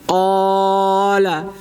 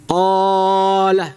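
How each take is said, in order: Both takes have the same delivery.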